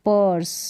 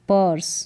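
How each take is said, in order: Both takes have the same delivery.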